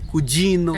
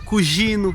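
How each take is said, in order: First: The g is said with the standard sound. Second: The g is said with a regional sound. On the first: This is the more common form that learners should aim for. "o G tem esse som de Joe" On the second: The speaker is from a southern region such as Calabria. "tem região aqui na Itália que fala Gio"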